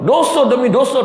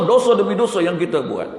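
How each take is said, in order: First: Higher and louder, crying out the words; preacher crying out against sin, loud and high; impassioned outcry. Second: Said in the usual way. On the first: Real, not acted. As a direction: call it out like a warning from the pulpit.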